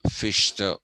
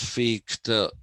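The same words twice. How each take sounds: First: The middle consonant is a soft 'sh' sound. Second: The middle consonant is a harsh guttural sound. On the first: This is the softened form Germans adopted. "they have softened the sound of h with sh, so it becomes" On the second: This is the original, unsoftened pronunciation. "Otherwise, it's"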